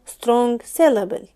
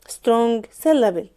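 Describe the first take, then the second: The two takes are said the same way.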